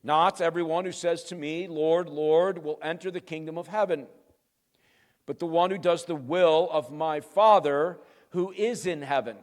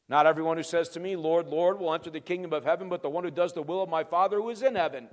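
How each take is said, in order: First: Measured, emphatic verse reading; weighty reading at an unhurried pace; deliberate scripture reading. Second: Fast, run-together scripture recap; brisk recital in one breath; rapid re-reading. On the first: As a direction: read the verse out firmly, with pauses between phrases. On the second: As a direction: race through the familiar verse without pausing. Quick re-reading of same verse. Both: Real, not acted.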